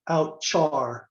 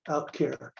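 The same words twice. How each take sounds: First: The 'char' part starts with a 'ch' sound. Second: The 'char' part starts with a 'k' sound. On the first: The word is not tied to its longer source word. The speaker calls it wrong. "some people pronounce outchar because they don't remember that stands for character" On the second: The word is short for its longer source word. The speaker calls it right. "I call it outchar, out character"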